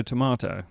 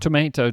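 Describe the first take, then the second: First: "tomato" with mah, tuh-MAH-toh; British tomato. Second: "tomato" with may, tuh-MAY-toh; American tomato. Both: Shown as a demonstration. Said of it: "contrasting pronunciations".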